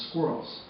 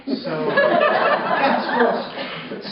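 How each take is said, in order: First: Said in the usual way. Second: Laughing it out, higher and louder. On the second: Real, not acted. Boy laughing at his squirrel report topic, higher and louder.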